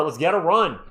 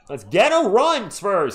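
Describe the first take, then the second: First: Said in the usual way. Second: Louder, higher, slower rallying call; louder rally cry. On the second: Real, not acted. Fan urging the Spurs on, louder rallying call. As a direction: drag it out and push it, rallying the team.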